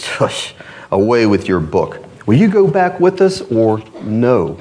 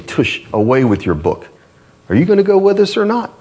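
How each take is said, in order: First: A dismissive scoffing voice; scornful Obstinate. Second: Fast, higher scornful brush-off; mocking scoffer. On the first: A narrator's reading. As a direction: brush him off with scorn. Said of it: "Obstinate answered". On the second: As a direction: sneer it off quickly. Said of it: "they'll say".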